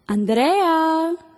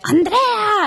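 First: The name is called fairly softly. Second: The name is yelled very loudly.

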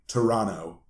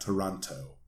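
First: The second T sound is dropped. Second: The second T sound is clearly pronounced. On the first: This is how locals say it. The speaker calls it right. "they don't enunciate the T" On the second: This is how outsiders say it. The speaker calls it wrong. "not Toronto"

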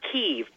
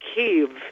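First: The name is said as one syllable. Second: The name is said as two syllables. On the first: The speaker calls it wrong. "It's not Kiev. People think it's just Kiev now" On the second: The speaker calls it right. "it's actually still two syllables. And the first I is sort of like you say it in kids"

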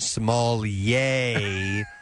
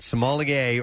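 First: The word is said in a smug, affected way. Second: The word is said in a plain, ordinary way.

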